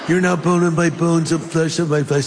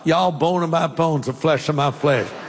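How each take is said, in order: First: It is said in a California accent. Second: It is said in a Southern accent.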